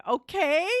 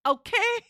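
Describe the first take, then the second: First: Pleading okay. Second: "Okay?" pushed much higher, pleading; second "Okay?" higher and more desperate. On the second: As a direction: repeat "Okay?" up high, begging. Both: Real, not acted. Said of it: "if I'm not laughing, I'm crying".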